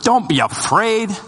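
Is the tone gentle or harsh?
harsh. It is said in a stern, condemning tone. It is a rebuke. The speaker calls it wrong. "you can read it as judgment or condemnation. You can read it with"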